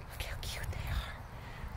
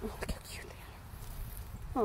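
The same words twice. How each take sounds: First: Slow soft whisper. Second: Soft adoring whisper; hushed, gushing over babies. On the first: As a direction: breathe it out slowly, hushed. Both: Real, not acted. Whispering near baby animals.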